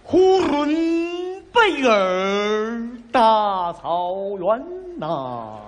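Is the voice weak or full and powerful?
powerful. It is said in a full, powerful chest voice.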